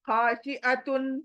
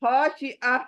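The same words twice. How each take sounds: First: खाशिअतुन read slowly with the full तुन; खाशिअतुन, not yet stopped; full tanween form. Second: खाशिअ cut short after अ, तुन dropped; खाशिअ as a pausal ending; stopping form. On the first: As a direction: sound out खाशिअतुन through to तुन. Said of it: "तो तुन नहीं पढ़ेंगे". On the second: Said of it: "खाशिअतुन नहीं पढ़ेंगे". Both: Shown as a demonstration.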